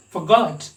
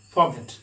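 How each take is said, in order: First: "forgot" with the GOT vowel raised and stressed; British pronunciation. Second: "forget" with no raised vowel, evenly stressed; demonstrated Indian-style "forget", unstressed vowel; Indian pronunciation. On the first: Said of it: "Giving stress on this vowel". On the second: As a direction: say "forget" without lifting the second syllable. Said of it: "we the Indians pronounce it as". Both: Shown as a demonstration.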